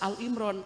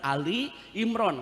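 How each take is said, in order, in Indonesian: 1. Kata pertama diucapkan sebagai Al. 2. Kata pertama diucapkan sebagai Ali. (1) "tidak boleh dibaca Al Imran" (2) "adalah yang benar Ali Imran"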